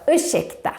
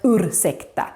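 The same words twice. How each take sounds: First: The r and s merge into a sh sound. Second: The r and s are said as separate sounds. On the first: The speaker calls it right. "No, ursäkta" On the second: The speaker calls it wrong. "and not ursäkta"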